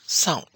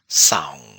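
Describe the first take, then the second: First: The vowel is cut short and abrupt. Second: The vowel is long with a level tone. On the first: To wait. "short tone" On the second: Blanket. "The aung sound is a long vowel sound"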